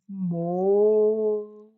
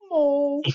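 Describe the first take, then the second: First: The word is said lower, with despair. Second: The word is said plainly, without despair.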